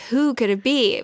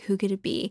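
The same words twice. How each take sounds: First: Voiced, heightened dramatic question; building suspense. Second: Hushed storyteller's whisper; suspenseful whisper. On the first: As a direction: raise the suspense, out of the whisper. Suspense building as lid lifts more. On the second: Acted. Retelling with suspense, lifting the lid.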